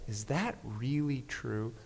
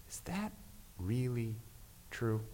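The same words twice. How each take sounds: First: Slow, soft, hushed question; gentle voice. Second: Soft, hushed, tender question; barely above a whisper, kindly asking; very gentle voice. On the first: Pastor repeats the inner voice's question, soft and slow. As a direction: ask it gently and slowly. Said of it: "as I heard this voice". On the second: Pastor recalls God's voice questioning him, softly hushed. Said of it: "very gentle voice asking". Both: Retold or imitated.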